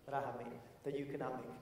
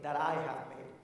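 First: Quiet repeat. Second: Said in the usual way. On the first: Real, not acted.

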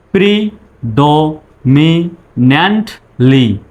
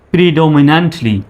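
First: প্রিডোমিন্যান্টলি slowly, syllable by syllable; broken into syllables. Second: Said in the usual way. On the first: Shown as a demonstration. Teacher speaking for learners to repeat, প্রিডোমিন্যান্টলি in slow syllables. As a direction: drill প্রিডোমিন্যান্টলি in separate beats. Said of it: "আমার পরে আপনি বলবেন". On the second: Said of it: "তারপরে একসঙ্গে বলবেন".

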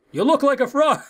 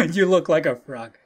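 First: Teasing character voice. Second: Said in the usual way. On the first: Acted. Bodyguard's green outfit being mocked, high teasing voice. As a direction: tease in a raised, hammed-up voice.

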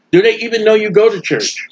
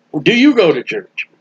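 First: The word "go" leaned on with a falling tune; stress on go. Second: "you" leaned on with a falling tune; stress on you. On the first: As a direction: hit "go" in "you go to church". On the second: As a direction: hit the word "you", pointing at the listener. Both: Shown as a demonstration. Preacher shifts stress between takes.

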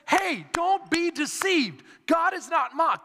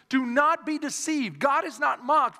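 First: "don't be deceived" slowed and pitched high, each word driven home; emphatic warning. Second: Said in the usual way. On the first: Acted. Preacher voices Paul warning the Galatian church, emphatic. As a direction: hit "don't be deceived" hard, high and deliberate. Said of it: "That's emphatic speech there". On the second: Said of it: "the Bible says in the book".

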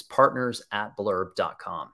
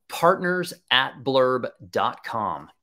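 First: Said in the usual way. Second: Spelling out the address slowly; slow dictation. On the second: Shown as a demonstration. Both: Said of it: "is the email address that you want to use".

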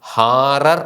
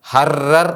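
First: ഹാറർ slow with a long first vowel; actual reading. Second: ഹറർ with short first vowel, stressed; rule-based reading. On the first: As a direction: stretch ഹാ in ഹാറർ. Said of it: "ഇത് വായിക്കുന്നത്". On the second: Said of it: "എന്നാണ് വായിക്കേണ്ടത്". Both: Shown as a demonstration.

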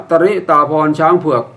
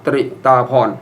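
First: ตริ said as two syllables, ta-ri; correct reading. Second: ตริ as a single clustered syllable "tri"; wrong reading. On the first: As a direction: separate the t and r of ตริ with a short a. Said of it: "ให้อ่านว่า". (อ่านให้ถูกว่า ตะ-ริ-ตา-พอน) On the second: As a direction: blend t and r in ตริ with no vowel between. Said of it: "อย่าอ่านว่า". (อ่านผิดเป็น ตฺริ-ตา-พอน ควบกล้ำ) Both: Shown as a demonstration.

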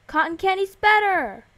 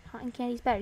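First: Higher, louder burst of delight; excited cheer. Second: Said in the usual way. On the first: Real, not acted. Player cheering for favourite candy flavour, excited cheer. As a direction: champion your favourite flavour loudly.

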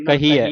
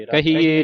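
First: ਕਹੀਐ ending in an open "ai" sound; correct pronunciation. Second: ਕਹੀਏ ending in a narrow e, high and loud; wrong pronunciation. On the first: Teacher corrects the reading, ਕਹੀਐ with open ai ending. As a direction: open out the final vowel of ਕਹੀਐ. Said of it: "ਐੜ ਦਲਾਵਾਂ". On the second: Teacher shows the misreading, ਕਹੀਏ with narrow e ending. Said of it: "ਨਹੀਂ ਪੜ੍ਹਨਾ". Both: Shown as a demonstration.

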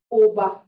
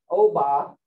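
First: Louder oba with a short, unglided o; pure strong O. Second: Oba with a gliding English "oh". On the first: Teacher correcting the English version, pure-vowel oba. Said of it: "it's oba". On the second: Teacher showing what you can't say, English-style oba. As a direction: lower oba, first syllable as English oh, open ah ending. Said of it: "like if you did it in English". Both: Shown as a demonstration.

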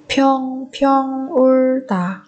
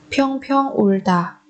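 First: "평평 울다" slowly, syllable by syllable; drawn-out teaching model of "평평 울다". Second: Said in the usual way. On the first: Shown as a demonstration. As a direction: stretch each syllable of "평평 울다". Teacher repeats phrase syllable by syllable.

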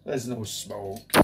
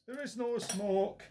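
First: Said in the usual way. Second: "There is no smoke" with "no" lifted high and soft; stress on "no". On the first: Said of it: "That was for Mark the Pondering Man, that little gag". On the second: Shown as a demonstration. Vlogger repeats the gag for a viewer, stressing no. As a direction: lean on "no" in the gag. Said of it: "that little gag".

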